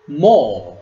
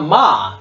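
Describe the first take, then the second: First: The vowel is a rounded 'oh' sound. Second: The vowel is an open 'ah' sound. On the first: The speaker calls it right. "It is what? Mo" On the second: The speaker calls it wrong. "So it is not ma"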